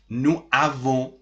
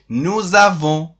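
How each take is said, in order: First: The s of nous stays silent before avons. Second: A z sound links nous to avons. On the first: The speaker calls it wrong. "it is not correct to say nous avons" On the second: The speaker calls it right. "You must say nous avons"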